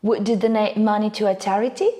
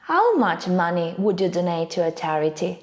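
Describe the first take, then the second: First: Quick question, "charity" lifted at the end; yes-no question tune, rising on "charity"; rising intonation. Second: Wh-question tune, falling on "charity"; falling intonation. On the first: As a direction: let the voice climb on charity. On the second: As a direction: hit How much, let charity fall. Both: Shown as a demonstration. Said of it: "Let's see a few more examples".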